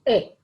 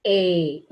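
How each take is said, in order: First: "A" said short and clipped, a quick single vowel. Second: "A" held long and stretched, louder than the short one. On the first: Teacher contrasting short vowel for pupils, short "A". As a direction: say "A" short, cut off fast. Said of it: "You only pro-, should pronounce A". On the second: Teacher contrasting long vowel for pupils, long "A". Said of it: "If it is long". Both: Shown as a demonstration.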